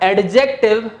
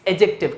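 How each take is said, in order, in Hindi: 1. d की ध्वनि j से पहले बोली जाती है। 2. d की ध्वनि j से पहले मौन रहती है। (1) "इट्स नॉट एडजेक्टिव" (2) "ए और जे के बीच में जब जब डी होगा हमेशा साइलेंट होगा"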